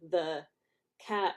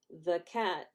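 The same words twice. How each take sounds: First: Both words get equal strong emphasis. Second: Only one word is stressed, the other weak.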